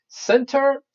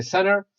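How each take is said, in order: First: Center with a clearly sounded T; careful T in center. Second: Center with the T dropped after the N; American center. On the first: Teacher showing spelling differences to students, careful T in Center. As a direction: say Center crisply with the T after the N. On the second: Teacher showing students how Americans say it, T dropped in center. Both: Shown as a demonstration. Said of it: "well, Americans say center".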